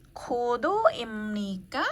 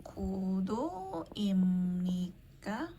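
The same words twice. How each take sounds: First: Kudo imnika slow with a rising end; example question. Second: Kudo imnika very slowly and softly, rising at the end; slow Korean question. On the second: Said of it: "gitu ya". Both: Shown as a demonstration.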